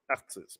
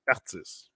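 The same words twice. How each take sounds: First: Artists said the French way, as artistes; French-accented artists, stress on the last syllable. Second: Said in the usual way. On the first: Shown as a demonstration. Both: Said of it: "I'm putting my French accent in there".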